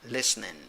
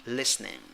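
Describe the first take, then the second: The two takes are said the same way.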